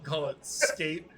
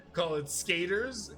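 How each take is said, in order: First: Said in the usual way. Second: Skaters drawn out slowly with weight on the name; stress on Skaters. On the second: Shown as a demonstration. Pitching a sitcom name to his co-host, slow stress on Skaters. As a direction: lean on Skaters like a show title. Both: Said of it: "just capitalize the E Rs".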